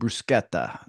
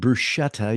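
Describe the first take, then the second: First: It is said with an Italian pronunciation. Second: It is said with an American pronunciation. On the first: The speaker calls it right. "you're eating bruschetta" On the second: The speaker calls it wrong. "you're not eating bruschetta"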